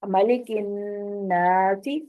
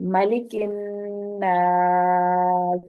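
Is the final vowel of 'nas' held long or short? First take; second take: short; long. First: The word continues and the vowel stays short. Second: The word stops and the vowel is drawn out.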